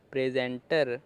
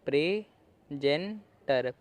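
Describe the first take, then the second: First: Said in the usual way. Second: प्रेजेंटर drawn out very slowly, syllable by syllable; slow model pronunciation. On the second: Shown as a demonstration. Teacher sounding out प्रेजेंटर slowly for students. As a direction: stretch प्रेजेंटर out slowly as pre-zen-ter so students can follow. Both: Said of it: "तो क्या बना?".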